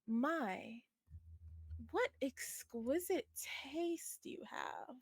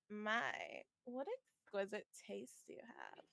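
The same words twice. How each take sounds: First: It is said in a voice unlike the character's. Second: It is said in the character's usual voice. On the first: The speaker calls it wrong. "I forgot that Nina doesn't sound like that" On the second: The speaker calls it right. "like so"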